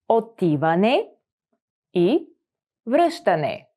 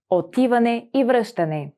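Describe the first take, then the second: First: Отиване, и, връщане, each set apart by pauses; word by word. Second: Said in the usual way. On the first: Shown as a demonstration. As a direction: break Отиване и връщане into separate words. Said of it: "teacher splits phrase word by word". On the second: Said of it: "teacher models phrase at normal speed".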